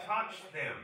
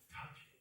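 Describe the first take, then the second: First: Full-voice mock command; imitated loud, open order. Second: Imitated soft whisper; hushed, voiceless command. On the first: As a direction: drop the whisper and say it loudly. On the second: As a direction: urge it under your breath. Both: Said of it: "We don't have to whisper".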